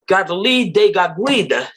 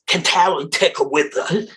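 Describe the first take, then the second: First: The name is said in a native-style pronunciation. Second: The name is said in an anglicized pronunciation. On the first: The speaker calls it right. "her name is" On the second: The speaker calls it wrong. "It's not"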